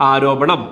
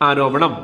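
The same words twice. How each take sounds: Both takes have the same delivery.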